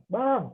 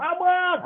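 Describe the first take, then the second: First: A higher, ordinary call to a son; mild calling out; first call. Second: Much higher, louder shouted name; imitating a mom yelling across the house; shouted call. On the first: Retold or imitated. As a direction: call him once, not yet raised. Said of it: "teriakan pertama". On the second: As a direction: yell for him at full pitch. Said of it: "makin lama makin besar volumenya".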